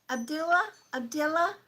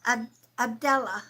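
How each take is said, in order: First: "Abdullah?" tried tentatively with a questioning rise; unsure pronunciation. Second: "Abdullah" said firmly with a falling close after a stumble; settled pronunciation. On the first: Medium unsure how to say the viewer's Arabic name. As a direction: test out "Abdullah?" like a guess. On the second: Medium correcting her reading of the viewer's name. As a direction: commit to "Abdullah", ending down. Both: Real, not acted. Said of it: "I'm pronouncing it wrong".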